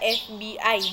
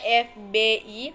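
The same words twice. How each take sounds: First: The letters are named a non-Indonesian way. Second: The letters are named the Indonesian way. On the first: The speaker calls it wrong. "bukan dibaca F B I" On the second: The speaker calls it right. "dibaca F B I"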